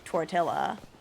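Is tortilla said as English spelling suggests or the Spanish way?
English spelling. It is pronounced as English spelling suggests. The speaker calls it wrong. "the way that that word is spelled, we would say tortilla"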